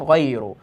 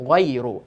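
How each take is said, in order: Both takes have the same delivery.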